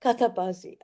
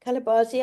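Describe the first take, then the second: First: Katabazi with a clear t in the middle; corrected name. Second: Kalabazi with an l in the middle; mispronounced name. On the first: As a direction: say Katabazi, t not l. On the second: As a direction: say Kalabazi, l sound not t. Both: Real, not acted. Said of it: "It's Katabazi".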